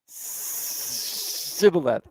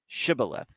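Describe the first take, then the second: First: The word begins with an 's' sound. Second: The word begins with a 'sh' sound. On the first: The speaker fails the test and gives away his origin. The speaker calls it wrong. "I should have worked on my shishes" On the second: This is the test word as it should be said. The speaker calls it right. "say Shibboleth"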